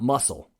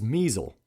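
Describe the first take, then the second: First: The name sounds like 'muscle', with a short u. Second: The name rhymes with 'measle', with a long e. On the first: The speaker calls it wrong. "not muscle" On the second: The speaker calls it right. "but that is Measle"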